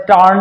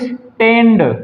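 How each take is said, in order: First: The vowel is a long open 'ah' sound. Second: The vowel is a short front 'a' sound. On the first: The speaker calls it wrong. "ना स्टांड होगा" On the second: The speaker calls it right. "यहां पे पढ़ते हैं ए"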